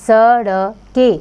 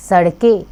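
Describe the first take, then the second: First: सड़के drawn out slowly, each syllable apart; slow phonics on सड़के. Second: Said in the usual way. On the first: Shown as a demonstration. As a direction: sound out सड़के slowly for the class.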